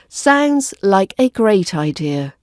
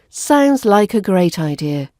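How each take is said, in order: First: The word 'a' has a full strong vowel. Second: The word 'a' has a weak 'uh' vowel. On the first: The speaker calls it wrong. "we don't pronounce the A vowel as the strong vowel sound" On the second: The speaker calls it right. "we use the weak version, which sounds like uh"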